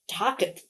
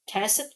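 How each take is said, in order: First: The word is said with a German-like sound. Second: The word is said to rhyme with facet. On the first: "which almost sounds like German" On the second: "which is what I thought like facet"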